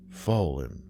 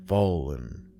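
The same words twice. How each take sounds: The two takes are said the same way.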